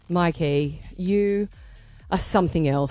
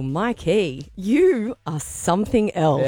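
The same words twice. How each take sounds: First: It sounds disappointed. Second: It sounds flirty.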